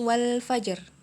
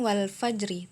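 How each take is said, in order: First: The word ends on a bare consonant. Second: The word ends with a final i vowel. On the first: The speaker calls it right. "tapi wal fajr" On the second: The speaker calls it wrong. "Bukan wal fajri"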